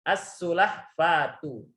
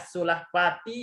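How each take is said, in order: First: The word ends in a u vowel. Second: The word ends in an i vowel. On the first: The speaker calls it right. "Harus membacanya" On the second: The speaker calls it wrong. "Ini nggak boleh dibaca"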